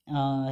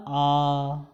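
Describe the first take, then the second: First: "आ" kept short, one beat; short vowel. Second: "आ" held for two beats, slow; long vowel. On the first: Teacher showing the short vowel before the long one. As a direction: clip "आ" off quickly as a short vowel. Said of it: "ह्रस्व स्वर". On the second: Teacher contrasting the long vowel with the short one. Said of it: "वो हमारा हो गया दीर्घ स्वर". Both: Shown as a demonstration.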